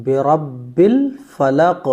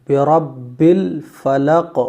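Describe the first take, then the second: The two takes are said the same way.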